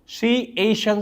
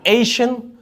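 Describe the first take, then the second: First: शी, एशियन said as separate syllables with a gap; split into syllables. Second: Said in the usual way. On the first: Shown as a demonstration. Teacher showing students a syllable split, separated syllables. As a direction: break the word into शी and एशियन. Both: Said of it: "आपने एक और कर लिया syllable".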